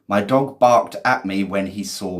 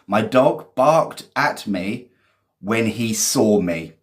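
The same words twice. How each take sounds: First: Said in the usual way. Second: Slow reading. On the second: Shown as a demonstration. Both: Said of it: "Well done, [name]".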